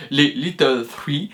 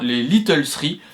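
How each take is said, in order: First: Little Three in a slower, light mock English accent. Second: Said in the usual way. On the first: Shown as a demonstration. Student naming the small studios tries Little Three in a mock English accent. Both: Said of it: "avec mon accent anglais ce serait mieux".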